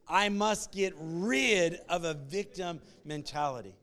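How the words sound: The word 'rid' is strongly emphasized.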